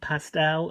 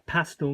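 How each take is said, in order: First: It is said in an American pronunciation. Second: It is said in a non-American pronunciation. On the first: The speaker calls it wrong. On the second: The speaker calls it right.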